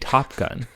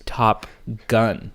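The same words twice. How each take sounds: First: The emphasis falls on the first word. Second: The emphasis falls on the second word. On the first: The two words form one meaning. "instead of being Top Gun" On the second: It means literally the top gun. "they put an F emphasis on gun"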